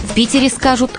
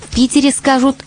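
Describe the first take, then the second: Both takes have the same delivery.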